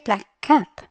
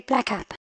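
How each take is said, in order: First: The k is held briefly, with a small gap. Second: The two k sounds merge into one short k. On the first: The speaker calls it right. "What do you say? You say black cap" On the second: The speaker calls it wrong. "as if there were only one C either. You don't say black cap"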